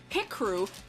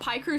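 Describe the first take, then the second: First: The first syllable is said like 'pick'. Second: The first syllable is said like 'pie'. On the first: It sounds aggressive. "Pick-Crew sounds like aggressive" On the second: It sounds tasty and smooth. "Pie-Crew sounds tastier"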